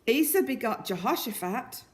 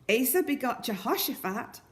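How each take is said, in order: The two takes are said the same way.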